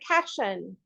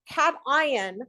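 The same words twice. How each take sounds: First: The word is said without the sound of 'ion'. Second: The word is said with the sound of 'ion'. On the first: Other people say it this way. "you will hear people say cation" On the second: The word is tied to the word ion. "I always use the term cation, and the reason I do so is because it is an ionic bond"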